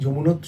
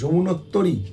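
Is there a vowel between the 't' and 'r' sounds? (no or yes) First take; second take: no; yes. First: The 't' runs straight into 'r', no vowel. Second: A long 't' is followed by a vowel before 'r'. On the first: The speaker calls it wrong. "উচ্চারণটা আমরা ভুল করি" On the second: The speaker calls it right. "কি সুন্দর উচ্চারণ করেছে"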